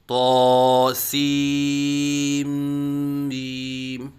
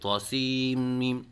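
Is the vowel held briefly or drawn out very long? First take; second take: drawn out; briefly. First: The long vowel is stretched out too long. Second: The long vowel is cut too short. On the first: "ज़्यादा लंबे करके पढ़ते हैं" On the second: "एक अलिफ के बराबर लंबा करके नहीं पढ़ते"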